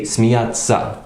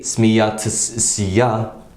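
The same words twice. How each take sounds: First: The t and s merge into one long ts. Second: The t and s are pronounced as separate sounds. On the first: The speaker calls it right. "we say смеяться" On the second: The speaker calls it wrong. "we don't say смеяться"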